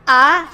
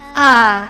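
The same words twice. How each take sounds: First: It is said as if doubting. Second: It is said tired, with no energy. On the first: "I would say like you are doubting lah" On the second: "say it as if you're dying. As if you're no energy"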